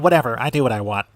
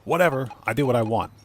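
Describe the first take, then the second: First: It is said in a put-on cartoon character voice. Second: It is said in the speaker's normal voice. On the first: "Or in a Cartman voice" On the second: "As Cartman said"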